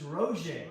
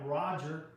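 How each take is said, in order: First: The name is pronounced the French way. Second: The name is pronounced the English way. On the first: "the French pronunciation is Roger" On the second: "It's spelled like Roger"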